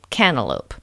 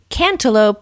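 First: The T sound is left out. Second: The T sound is clearly pronounced. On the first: The speaker calls it wrong. "but I say cantaloupe" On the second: The speaker calls it right. "It should be cantaloupe"

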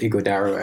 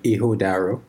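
First: The middle sound is a hard g. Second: The middle sound is soft, without a hard g. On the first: This is how most people say it. "a lot of people call it Igodaro" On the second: This is closer to the original pronunciation. "it's more like Ihodaro"

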